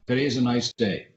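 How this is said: The pitch stays level with equal emphasis throughout. "Straight inflection says, ... Equal emphasis on each word"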